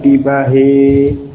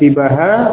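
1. Vokal akhir condong ke bunyi e. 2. Vokal akhir terdengar seperti a biasa.

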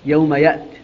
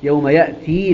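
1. لا تنتهي الكلمة الأخيرة بياء مدّ طويلة. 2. تنتهي الكلمة الأخيرة بياء مدّ طويلة. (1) "إذا قرأ بالوقف عليها يوم يأت" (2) "يقرأها بإثبات الياء"

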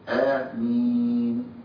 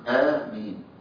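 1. تُمَدّ الحركة الأخيرة أربع حركات. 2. تُمَدّ الحركة الأخيرة حركتين. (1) "أربعة" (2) "معاك اثنين"

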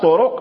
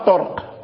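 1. تأتي ضمة قصيرة بعد صوت الراء. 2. يأتي صوت القاف مباشرة بعد صوت الراء. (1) "بضم الراء" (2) "للضرورة يقال لها طرق"

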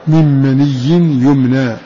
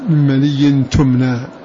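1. تبدأ الكلمة الأخيرة بصوت الياء. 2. تبدأ الكلمة الأخيرة بصوت التاء. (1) "فقرأ حفص" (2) "والباقون كلهم قرأوا بالتاء"

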